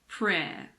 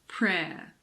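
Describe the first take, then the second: Both takes have the same delivery.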